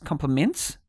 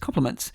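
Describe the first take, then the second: First: The voice rises at the end. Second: The voice falls at the end.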